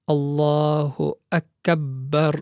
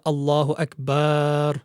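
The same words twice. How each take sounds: First: The b consonant is held and doubled. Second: The vowel after the b is stretched long. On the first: "one should not have any shadda on the ba" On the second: "there should not be an extension of the ba of the word akbar"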